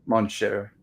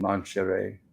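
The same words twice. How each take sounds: First: Mon cher ending like "share"; unsure French pronunciation. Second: Mon cher ending in an extra "ay"; unsure French pronunciation. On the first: Host correcting uncertain French, mon cher said share. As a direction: try mon cher with no extra syllable, softer. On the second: Host unsure of French, mon cher said share-ay. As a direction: try mon cher as mon share-ay, low and soft. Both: Real, not acted. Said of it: "However that's pronounced".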